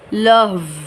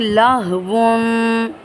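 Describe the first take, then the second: First: The word ends on a bare consonant. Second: The word ends with an added '-un' sound. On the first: The reader stops at this word. "वाव को साकिन करते हुए" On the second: The reader continues without stopping. "दो पेश अगर हो किसी हर्फ पर"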